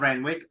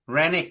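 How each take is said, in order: First: The name has a w sound in the middle. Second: The name has no w sound in the middle. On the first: The speaker calls it wrong. "not Renwick" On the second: The speaker calls it right. "Rennick, not Renwick"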